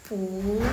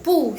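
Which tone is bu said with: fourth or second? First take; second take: second; fourth. First: The syllable is said with a rising second tone. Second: The syllable is said with a falling fourth tone. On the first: "Jadi bacanya pu, nada kedua ya guys" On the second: "jadi punya itu tetap nada keempat"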